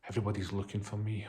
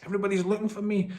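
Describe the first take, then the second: First: It sounds heavy and reluctant. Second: It sounds pleased and eager.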